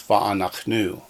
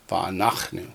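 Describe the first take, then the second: First: The stress is on the last syllable. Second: The stress is on the nach syllable. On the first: The speaker calls it wrong. "not va'anachnu" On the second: The speaker calls it right. "it was on the nach"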